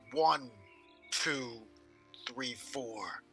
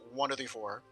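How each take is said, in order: First: There are pauses between the words. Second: The words run together without pauses.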